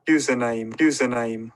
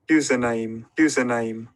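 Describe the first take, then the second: No difference in how they are said.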